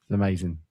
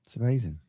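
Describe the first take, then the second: First: Deflated. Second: Said in the usual way. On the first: Real, not acted. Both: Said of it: "I'm broken".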